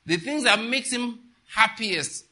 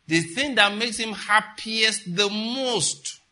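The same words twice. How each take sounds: First: "the things" said slowly, "happiest" leaned on; slow emphatic correction. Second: Slow, stressed "The thing that makes him happiest", every word weighed; slow emphasis. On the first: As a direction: restate it slowly, weighing "happiest". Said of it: "let me correct my English". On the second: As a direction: drag out "happiest the most" for emphasis. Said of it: "double emphasis". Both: Shown as a demonstration.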